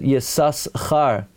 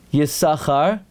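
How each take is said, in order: First: The s sound is pronounced twice. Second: The s sound is pronounced once. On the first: "the first time you pronounce it Yisus Char, to show that's his name" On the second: "and after that Yisachar"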